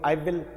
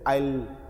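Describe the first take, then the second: First: Both words are said fully and separately. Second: The words merge into one short syllable.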